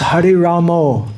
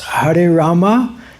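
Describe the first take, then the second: First: The name ends with a rounded 'oh' vowel. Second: The name ends with an open 'ah' vowel. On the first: The speaker calls it wrong. "sometimes devotees pronounce Hare Ramo" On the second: The speaker calls it right. "sometimes devotees pronounce Hare Rama"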